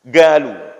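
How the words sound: It begins with a hard g sound. This is how Yemenis say it. "orang Yaman ... baca huruf qaf yang ga gitu"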